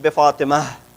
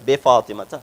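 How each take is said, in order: First: The name ends without the final -ta ending. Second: The name ends with a final -ta ending. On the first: This is the usual everyday pronunciation. "Usually we don't pronounce it, so we just say Be Fatima" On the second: This is the full written form. "But it's Be Fatima ta"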